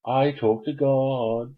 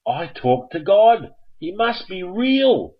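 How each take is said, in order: First: Slow, sing-song smug boast; smug gloat. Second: Higher, louder and slow, thrilled; excited boast. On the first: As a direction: gloat at the audience slowly. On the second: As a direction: proclaim it, beaming with pride. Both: Pretend.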